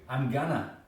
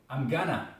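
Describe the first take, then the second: Both takes have the same delivery.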